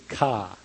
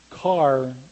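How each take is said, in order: First: It is said Boston-style, with no r. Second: It is said with a plain American r.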